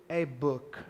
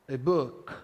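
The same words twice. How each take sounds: The two takes are said the same way.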